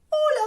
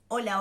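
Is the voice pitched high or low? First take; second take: high; low. First: A light, high head voice is used. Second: A full, lower chest voice is used. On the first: Few people speak this way. "El registro de voz de cabeza ... Muy pocas personas hablan así" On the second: This is the ordinary speaking voice. "La voz de pecho ... es la voz que en general utilizamos para hablar"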